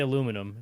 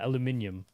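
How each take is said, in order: First: It is said the American way, four syllables. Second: It is said the British way, five syllables. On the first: "they don't say aluminum" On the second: "said it like British, but with no accent"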